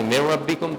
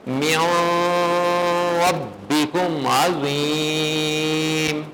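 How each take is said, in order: First: "مِّن رَّبِّكُمْ" said quickly, no nasal hold; imitated wrong recitation. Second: Slow chant with long-held "مِّن" and final "عَظِيمٌ"; sung, demonstrate "مِّن رَّبِّكُمْ عَظِيمٌ" drawn out and melodic; sung, model recitation. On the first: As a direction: mimic the mistake: rush "مِّن رَّبِّكُمْ" without stretching it. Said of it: "آپ نے غلط پڑھا". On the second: Shown as a demonstration. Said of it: "میں نے پڑھا ہے".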